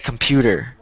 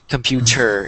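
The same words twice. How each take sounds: First: The middle consonant is a quick D sound. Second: The middle consonant is a clear T sound. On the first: This is how most people say it, faster. "they're saying it faster with a D instead of a T" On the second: This makes you slow down. "if it's a T, then you're saying computer"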